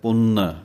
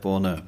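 First: The vowel is nasalized with a heavy n. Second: The n is very light and soft. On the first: "ਜੇ ਟਿੱਪੀ ਲਾ ਕੇ ਬੋਲਾਂਗੇ ਤਾਂ ਪਾਠ ਹੁੰਦਾ ਹੈ" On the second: "ਜੇ ਬਹੁਤਾ ਹੀ ਪੋਲਾ ਬੋਲਦੀਏ ਤਾਂ ਪਾਠ ਦੀ ਆਵਾਜ਼ ਇਸ ਤਰ੍ਹਾਂ ਨਿਕਲਦੀ ਹੈ"

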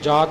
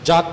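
First: The vowel is long and said softly. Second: The vowel is short and clipped. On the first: The speaker calls it right. "ਜਾਤ ਬੋਲਣਾ ਪੋਲਾ ਬੋਲਣਾ" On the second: The speaker calls it wrong. "ਜਤ ਪਾਠ ਨਹੀਂ ਕਰਨਾ"

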